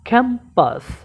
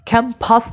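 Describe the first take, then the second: First: The p is said without a puff of air. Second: The p is said with a strong puff of air. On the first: The speaker calls it right. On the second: The speaker calls it wrong.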